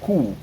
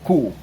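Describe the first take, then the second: First: The letter is said the German way, with k. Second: The same.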